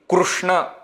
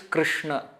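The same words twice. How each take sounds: First: The r is said with a clear u vowel. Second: The r has a vowel between r and ri. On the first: The speaker calls it wrong. "In Marathi and Gujarati, Krishna ... we use the pronunciation called Ru" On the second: The speaker calls it right. "It is not Krishna, it is not Krishna, it is Krishna"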